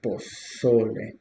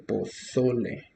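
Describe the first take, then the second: First: Pozole slowed, middle syllable so pushed; slow stressed pozole. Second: Pozole with the stress on the middle syllable so. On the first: Teacher repeating pozole slowly for learners. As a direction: draw out pozole and hit so. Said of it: "So here we go". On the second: Teacher showing the stress in pozole, clear and deliberate. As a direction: lean on the so in pozole. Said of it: "The stress is in the second, uh, syllable". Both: Shown as a demonstration.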